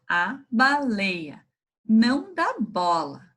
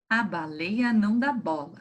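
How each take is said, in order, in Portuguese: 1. É lida em um ritmo lento e normal. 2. É lida mais rápido do que da primeira vez.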